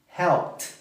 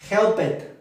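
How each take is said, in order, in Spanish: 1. El final es un solo sonido de t. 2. El final se pronuncia como una sílaba extra.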